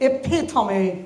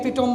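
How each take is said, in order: First: The stress falls on the second syllable. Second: The stress does not fall on the second syllable. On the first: The speaker calls it right. "The second সিলেবালে জোর হবে" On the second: The speaker calls it wrong. "অনেকেই epitome বলে sadly"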